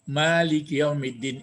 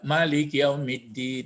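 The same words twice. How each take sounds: First: The first vowel of Malik is long. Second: The first vowel of Malik is short. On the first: The ruler holds full power over all affairs. "Imam Kiraat yaitu Asim, Kisai dan Yakub" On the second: The ruler holds power over commands and prohibitions. "jadi tidak pakai alif dia. Dia membaca Malik Yaumiddin gitu"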